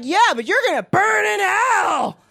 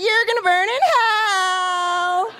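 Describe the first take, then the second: First: Said in the usual way. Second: High, very slow gleeful warning; high drawn-out thrilled delivery; more excited. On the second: Shown as a demonstration. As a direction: relish it like good news. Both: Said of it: "say that a little more excited".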